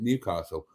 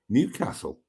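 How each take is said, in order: First: It is said in an outsider's pronunciation. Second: It is said in the local pronunciation. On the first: "I would pronounce it Newcastle" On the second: "the locals would pronounce it Newcastle"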